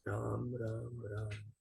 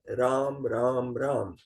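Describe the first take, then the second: First: It is said softly. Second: It is said loudly.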